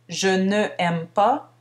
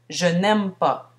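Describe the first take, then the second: First: The vowel of ne is pronounced separately. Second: The vowel of ne is dropped and linked. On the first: The speaker calls it wrong. "Ce n'est donc pas" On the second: The speaker calls it right. "mais bien"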